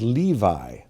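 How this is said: The name has a familiar English pronunciation. This is the form most listeners already know. "you know may know better as Levi"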